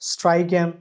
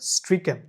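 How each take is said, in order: First: The first vowel is long, as in 'pike'. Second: The first vowel is short, as in 'pick'. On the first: The speaker calls it wrong. "স্ট্রাইকেন না" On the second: The speaker calls it right. "American English এবং British English দুইটাতেই তবে স্ট্রিকেন"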